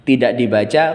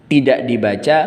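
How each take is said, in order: Both takes have the same delivery.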